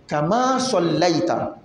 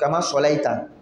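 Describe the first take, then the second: First: The L sound is held long and doubled. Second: The L sound is short and single. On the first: The speaker calls it right. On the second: The speaker calls it wrong.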